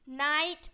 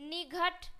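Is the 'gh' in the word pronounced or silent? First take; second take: silent; pronounced. First: The gh is silent and the vowel glides. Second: The gh is pronounced as a g sound. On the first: The speaker calls it right. "जी एच को पढ़ना ही नहीं है" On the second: The speaker calls it wrong. "गलत है"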